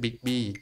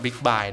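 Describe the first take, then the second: First: The second syllable sounds like 'bee'. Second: The second syllable sounds like 'bye'. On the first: The speaker calls it right. "เขาบอกว่าเป็นชื่อบิ๊กบี้" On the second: The speaker calls it wrong. "ไม่ได้อ่านว่าบิ๊กบายนะครับตอนแรกผมอ่านผิด"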